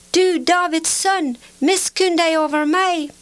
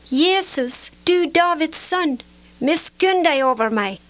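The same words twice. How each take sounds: First: High, sustained cry for mercy; calling even louder. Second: Higher-pitched, restrained cry for mercy; calling out. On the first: Blind man defying those who hush him, calling out insistently. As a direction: hold the pitch high and call out insistently. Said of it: "han ropte bare enda høyere". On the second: Blind beggar calling to Jesus from the roadside, calling out. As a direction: call out pleadingly in a raised pitch. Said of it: "satte han i å rope". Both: A narrator's reading.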